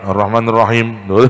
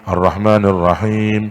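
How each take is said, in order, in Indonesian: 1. Vokal panjang dipotong pendek dan dibaca terburu-buru. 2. Vokal panjang dibaca panjang penuh. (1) "Sama dia disingkat" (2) "itu harus panjang"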